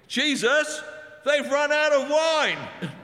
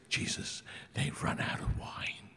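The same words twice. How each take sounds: First: It is said loudly, as if calling across a room. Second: It is said quietly and discreetly. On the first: She announces the problem in front of everyone. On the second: She is trying to avoid embarrassing the hosts. "she went up discreetly and said"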